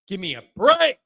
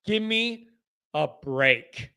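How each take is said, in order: First: "Give me a break" with BREAK punched; exasperated BREAK. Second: "Give me", pause, "a break" low and soft; weary exasperation. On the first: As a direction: hit "break" hard after a quick lead-in. Exasperated, said twice. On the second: Repeats it low and spaced. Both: Real, not acted.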